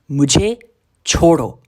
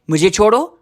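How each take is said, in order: First: It is said firmly with moderate force. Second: It is said loudly with strong force. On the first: The speaker wants to be left alone. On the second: The speaker insists more urgently on being left alone. "with a little bit more force"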